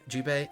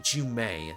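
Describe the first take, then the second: First: The middle consonant is a B sound. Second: The middle consonant is an M sound. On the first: The speaker calls it right. "not Jubei" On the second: The speaker calls it wrong. "I always say Jumei"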